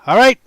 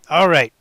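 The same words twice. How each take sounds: First: All right asked with a rising question; questioning rise. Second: All right answered with a falling close; settled fall. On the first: Asks viewers, then answers himself. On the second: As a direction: land right down firmly. Answers his own question. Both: Real, not acted.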